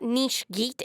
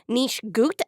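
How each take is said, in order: First: The second word has an 'ee' vowel. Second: The second word has an 'oo' vowel. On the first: The speaker calls it wrong. "it's not Niche Geet" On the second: The speaker calls it right. "it's Niche Gut"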